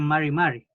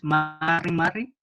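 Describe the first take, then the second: First: The r is soft, like an English r. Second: The r is strong, like a Spanish r. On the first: The speaker calls it right. "sino que es ... Es como una R parecida al inglés" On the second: The speaker calls it wrong. "no es"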